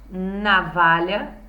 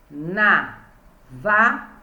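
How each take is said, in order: First: Said in the usual way. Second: Navalha broken into na, va, lha with long gaps; syllable by syllable. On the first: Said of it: "As com três sílabas". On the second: Shown as a demonstration. Teacher counting three syllables, navalha syllable by syllable. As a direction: say navalha slowly in three separate beats. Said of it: "Três sílabas".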